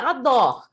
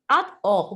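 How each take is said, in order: First: The two parts are joined into one word. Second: The two parts are said separately with a break. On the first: This is how people actually say it. "então é ador" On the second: This form shows the word's original meaning. "ninguém vai falar ad or"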